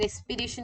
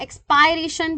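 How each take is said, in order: First: एक्सपीरेशन with an "ee" in the second syllable, ex-pee-RAY-shun; एक्सपीरेशन with the vowel of "spirit" drawn to "ee"; alternative pronunciation. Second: एक्सपायरेशन with a long "eye" in the second syllable, ex-pie-RAY-shun; एक्सपायरेशन pronounced like "expire" plus "-ation"; alternative pronunciation. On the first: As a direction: say एक्सपीरेशन with "pee", not "pie". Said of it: "कई लोग एक्सपीरेशन कहते हैं". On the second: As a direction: say एक्सपायरेशन with "pie", as some people do. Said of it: "भी कहते हैं कई लोग". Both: Shown as a demonstration.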